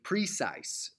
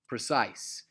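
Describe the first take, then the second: First: The stress is on the first syllable. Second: The stress is on the second syllable. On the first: The speaker calls it wrong. "if you're my dad, you would say that trochaically" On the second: The speaker calls it right. "naturally pronounced precise, uh, which is iambic"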